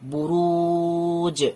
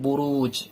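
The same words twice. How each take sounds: First: The final j ends with an echoing bounce. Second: The final j ends plainly, with no bounce. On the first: "কলকলা দিচ্ছি" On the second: "simply আগে এটা পড়তাম"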